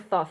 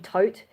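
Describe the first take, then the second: First: The name begins with a th sound. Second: The name begins with a plain t sound. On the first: This follows how the name is spelled. "that's how it's just like, what the letters say" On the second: This is how another source says the name. "Crash Course Mythology, call him Tote"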